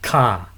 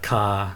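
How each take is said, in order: First: The pitch stays high throughout. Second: The pitch stays low throughout. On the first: Trade. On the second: Galangal, a plant in the ginger family.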